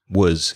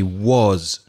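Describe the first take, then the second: First: The vowel is a weak schwa. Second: The vowel is full and strong. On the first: The speaker calls it right. "It's with that weak schwa" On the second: The speaker calls it wrong. "we don't actually say was normally"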